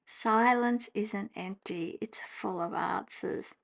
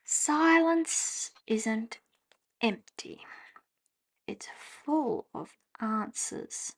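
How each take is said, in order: First: Slow, flat, fading off on answers; dry sceptical reread; unimpressed reading. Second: Drawn-out tentative reading; slow rereading. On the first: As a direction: read it like it falls flat. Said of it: "how much more does this say to you". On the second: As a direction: read it slow, letting it fade. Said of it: "rereads card slowly". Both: Shown as a demonstration.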